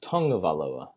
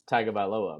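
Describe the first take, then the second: First: The name is said with an 'ng' sound. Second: The name is said without an 'ng' sound. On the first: The speaker calls it right. "my wife has corrected me and said it's Tungavailoa" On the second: The speaker calls it wrong. "there's no U, there's no N, there's no G"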